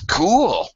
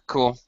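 First: It is said with lively, excited intonation. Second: It is said plainly, as a calm agreement. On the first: It means the idea is great. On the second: It is a simple yes.

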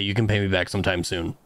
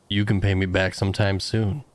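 First: It is said in a pointed, pressing tone. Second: It is said in a relaxed, easygoing tone. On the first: Repayment is expected soon. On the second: Repayment can wait.

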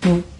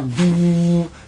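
First: The sound is cut off short. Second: The sound is drawn out long. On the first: This is how the weak short bass actually sounds. The speaker calls it wrong. "C'est des basses qui sont courtes" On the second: This is how deep sustained bass should sound. The speaker calls it right. "c'est pas des basses prolongées"

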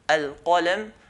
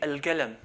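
First: A deep q sound is made at the throat. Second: The q sound is replaced by a g sound. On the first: This is the standard pronunciation. "Instead of saying al-qalam" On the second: This is how the Gulf area says it. "they change it to a g"

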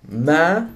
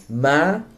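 First: The pitch rises from mid height. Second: The pitch rises from mid height.

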